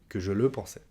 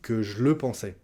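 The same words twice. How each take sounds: First: The vowel of "je" is fully pronounced. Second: The vowel of "je" is dropped.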